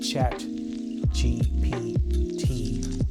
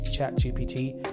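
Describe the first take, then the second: First: The name is said slowly and haltingly. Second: The name is said quickly in one go.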